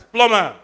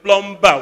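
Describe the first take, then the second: First: The b in plumber is silent. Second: The b in plumber is pronounced. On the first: The speaker calls it right. "It's plumber" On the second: The speaker calls it wrong. "don't go out there and say"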